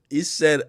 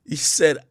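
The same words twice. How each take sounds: The two takes are said the same way.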